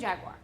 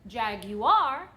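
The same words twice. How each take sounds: First: Jaguar is said with a South Texas pronunciation. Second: Jaguar is said with the standard pronunciation. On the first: This is the speaker's habitual regional way. "That's how I've said it since I was a kid" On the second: This is the officially proper way. "you're supposed to properly pronounce it Jaguar"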